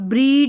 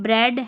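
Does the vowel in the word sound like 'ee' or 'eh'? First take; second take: ee; eh. First: The vowel is a long 'ee' sound. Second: The vowel is a short 'eh' sound. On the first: The speaker calls it wrong. "नहीं पढ़ रहे हैं" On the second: The speaker calls it right. "ई ए को ए पढ़ रहे हैं"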